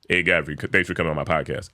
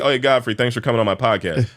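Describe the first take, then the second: First: It is said pitched down, like his dad. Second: It is said in his normal voice.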